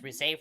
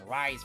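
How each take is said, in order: First: The name is said as two syllables, ree-seh. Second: The name is said like the English word rise. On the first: The speaker calls it right. "they're gonna not pronounce Risei's name as Risei first" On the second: The speaker calls it wrong. "They're gonna pronounce it as Rise first"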